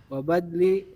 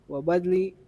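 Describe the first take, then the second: No difference in how they are said.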